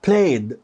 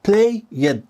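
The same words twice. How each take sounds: First: The word is said as one syllable. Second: The word is said as two syllables. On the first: The speaker calls it right. "one syllable مقطع واحد" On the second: The speaker calls it wrong. "two syllables"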